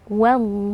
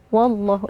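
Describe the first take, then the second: First: The opening wa sounds thin and light. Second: The opening wa sounds thick and heavy. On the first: The speaker calls it right. "Jadi wa tipis" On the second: The speaker calls it wrong. "itu bacaan yang salah"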